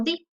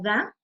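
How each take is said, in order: First: "di" with a long ee vowel; pronounced "di". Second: "da" with an open ah vowel; pronounced "da". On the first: Teacher showing students the other pronunciation of the article, "di" with ee. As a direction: say "di", rhyming with see. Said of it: "se va a pronunciar como di". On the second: Teacher showing students one pronunciation of the article, "da" with ah. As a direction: say "da", ending on an open ah. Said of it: "en cuestión de pronunciación". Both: Shown as a demonstration.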